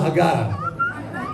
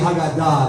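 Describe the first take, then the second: First: The stress falls before the last syllable. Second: The stress falls on the last syllable. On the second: This is the modern pronunciation. "the modern pronunciation would be Haggadah, the accent being on the end"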